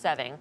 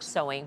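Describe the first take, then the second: First: It is said unlike the English word 'sewing'. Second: It is said like the English word 'sewing'. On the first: The speaker calls it right. "but it's pronounced sewing" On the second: The speaker calls it wrong. "It looks like sewing"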